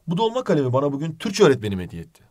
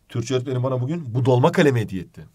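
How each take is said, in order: First: The stress falls on the word öğretmenim. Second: The stress falls on the word kalemi. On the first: The teacher is the one who gave it. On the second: It was the fountain pen that was given.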